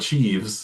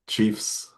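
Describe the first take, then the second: First: The word ends with a v sound. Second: The word ends with an f sound. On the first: The speaker calls it wrong. "It's not the Chiefs" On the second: The speaker calls it right. "The F sound has a. It's more of a solid"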